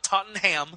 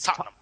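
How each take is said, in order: First: Tottenham is pronounced the American way. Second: Tottenham is pronounced the British way. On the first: The speaker calls it wrong. "it's not Tottenham" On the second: The speaker calls it right. "it's Tottenham"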